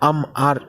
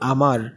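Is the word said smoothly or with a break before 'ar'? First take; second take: with break; smoothly. First: A break comes before the second 'a' sound. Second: The word flows smoothly with no break inside. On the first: "মানে আম আর এরকম করতেছি পারিনি তো" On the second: "আমি যদি বলি আমার"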